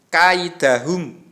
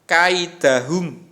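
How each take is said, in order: Both takes have the same delivery.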